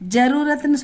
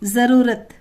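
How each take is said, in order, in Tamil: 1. முதல் மெய் கடினமான ஒலியுடன் சொல்லப்படுகிறது. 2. முதல் மெய் லேசான ஒலியுடன் சொல்லப்படுகிறது. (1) "ஜரூரத்னு சொல்லாமல்" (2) "அதுதான் கரெக்ட் ப்ரொனன்சியேஷன்"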